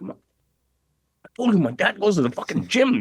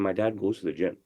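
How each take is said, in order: First: Put-on higher, louder, fed-up kid; insist, annoyed they keep laughing; exasperated child repeating himself; irked insistence. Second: Said in the usual way. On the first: Irked son insists a third time.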